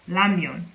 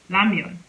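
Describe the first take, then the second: No difference in how they are said.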